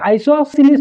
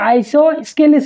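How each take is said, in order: First: No k sound follows the s. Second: A k sound follows the s. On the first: The speaker calls it right. "আইসোসেলিস triangle" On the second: The speaker calls it wrong. "এটো আইসোস্কেলিস নহয়"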